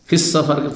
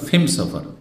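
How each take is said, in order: First: The article blends in as 's' before 'safar'. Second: The article is said as 'm' before 'safar'.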